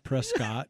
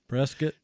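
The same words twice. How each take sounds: First: The last syllable sounds like 'cot'. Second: The last syllable sounds like 'kit', as in biscuit. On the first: The speaker calls it wrong. "not Prescott" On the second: The speaker calls it right. "Like biscuit"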